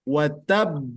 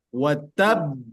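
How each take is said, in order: No difference in how they are said.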